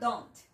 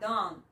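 First: The final T is pronounced heavily. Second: The final T is dropped. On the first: The speaker calls it wrong. "você não vai pesar sua pronúncia nessa letra T no final. Você não vai falar" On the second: The speaker calls it right. "você vai falar ... Tira o T"

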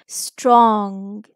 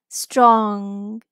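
The two takes are said the same way.

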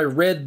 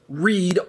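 First: The vowel is short, as in 'red'. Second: The vowel is long, as in 'reed'. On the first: The action happened in the past. "as in I read the book yesterday" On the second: The action is a present request. "the other is pronounced read, R-E-E-D"

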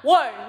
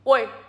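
First: It is said in a normal voice. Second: It is said in a deep voice.

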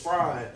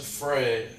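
First: The vowel rhymes with 'eye'. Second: The vowel rhymes with 'day'. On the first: The speaker calls it right. "no, it's Fry" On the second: The speaker calls it wrong. "everyone says Frey"

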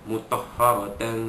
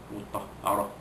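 First: The word ends in a -tan sound. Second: The word ends in a soft h sound. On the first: The reciter carries on into the next word. "Kalau sambung mutahharatan fiha" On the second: The reciter stops after this word. "kita bila wakaf jadi ha"

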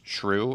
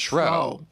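First: The word has its current pronunciation. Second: The word has a reconstructed Elizabethan pronunciation. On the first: "because of the way it's pronounced" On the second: "it was actually pronounced shrew"

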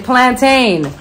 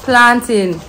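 First: It is said the way Americans say it. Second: It is said in the speaker's own non-American way.

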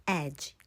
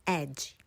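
No difference in how they are said.

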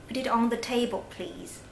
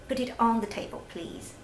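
Both takes have the same delivery.

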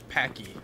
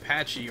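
First: The middle consonant is a 'k' sound. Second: The middle consonant is a 'ch' sound. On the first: The speaker calls it wrong. "or there's Packy" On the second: The speaker calls it right. "It's the normal way"

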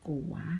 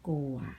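First: The word is said with a rising tone. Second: The word is said with a low tone. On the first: "ไม่จัตวา" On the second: "เอก"

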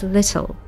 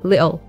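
First: The t in the middle is a clear t sound. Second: The t in the middle is a glottal stop. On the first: "this beautiful British accent of the princess, she says little" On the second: "Or sometimes the British might pronounce it like with a stop T"

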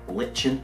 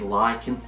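First: It is pronounced the way it is in England. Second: It is pronounced the way it is in America. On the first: "they actually pronounce the morph over here in England as lichen" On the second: "in America I think they say lichen"

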